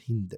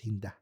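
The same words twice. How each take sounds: First: The name stops before its final sound. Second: The name is said with its final sound. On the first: The speaker calls it wrong. "It's not Hinda" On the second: The speaker calls it right. "You have to always say the last letter"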